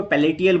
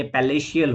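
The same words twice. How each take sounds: First: पैलेटियल with a T sound in the middle; common mispronunciation. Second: पैलेशियल with a SH sound in the middle; correct pronunciation. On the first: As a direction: say पैलेटियल with "ti" instead of "sh". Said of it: "कई लोग इसको पैलेटियल बोलते हैं". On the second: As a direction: say पैलेशियल with "sh" before "iyal". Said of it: "नहीं ये पैलेशियल होता है". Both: Shown as a demonstration.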